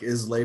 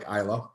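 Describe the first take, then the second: First: The name ends with an 'ay' sound. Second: The name ends with an 'uh' sound. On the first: This is how the name looks when read. The speaker calls it wrong. "Looks like Islay" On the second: This is how the name is actually said. The speaker calls it right. "pronounced like Isla"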